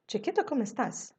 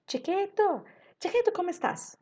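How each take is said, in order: First: "Chiquito, como estás?" as a question, close to usual pitch; milder questioning tune on "Chiquito, como estás?"; pergunta. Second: "Chiquito, como estás?" high and loud from the first word; pergunta desde o começo. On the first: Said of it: "Aqui não, viu?". ("Chiquito, como estás?" em tom de pergunta mais contido) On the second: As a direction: pitch "Chiquito" right up, question tune throughout. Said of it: "Já vai tudo na pergunta". ("Chiquito, como estás?" agudo desde o começo) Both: Shown as a demonstration.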